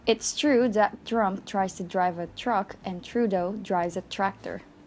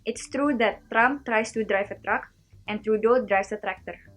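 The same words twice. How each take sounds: First: It is said in an American accent. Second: It is said in an Indonesian accent.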